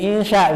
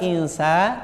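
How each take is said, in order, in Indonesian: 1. Konsonan tengahnya bunyi sh. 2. Konsonan tengahnya bunyi s biasa. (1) "dibacanya jadi insya Bu ya" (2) "tidak sya tapi insa ya, biasa saja"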